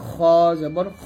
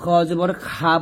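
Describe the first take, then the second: First: The final vowel is short and heavy. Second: The final vowel is drawn out like aa. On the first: The speaker calls it right. "বলতে হবে খ জবর খ" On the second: The speaker calls it wrong. "খ জবর খা বলা যাবে না"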